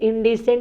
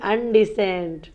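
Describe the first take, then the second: First: The word starts with an 'in' sound. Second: The word starts with an 'un' sound. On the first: The speaker calls it right. "इनडिसेंट को अनडिसेंट कर देती है" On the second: The speaker calls it wrong. "इनडिसेंट को अनडिसेंट कर देती है"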